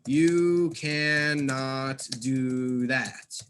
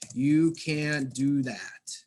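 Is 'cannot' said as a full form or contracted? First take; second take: full; contracted. First: The full form 'cannot' is said. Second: The contracted form 'can't' is said. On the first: The speaker calls it wrong. "it just does not sound natural" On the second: The speaker calls it right. "a native English speaker is going to use the contraction"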